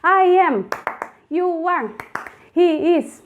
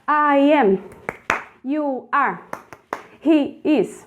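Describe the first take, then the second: First: The phrases are said at a very fast pace. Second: The phrases are said at a fast pace. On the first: "você vai mais rápido ainda" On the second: "vai mais rápido"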